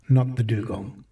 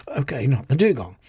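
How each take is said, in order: First: Not punched, the dugong said lightly after; stress on not. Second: Okay, not the dugong with dugong stressed and falling. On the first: Motorcycle refusing the dugong, stress on Not. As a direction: lean hard on Not in Not the dugong. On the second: Stacy giving in to the motorcycle, stress on dugong. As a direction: give in, landing the weight on dugong. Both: Acted.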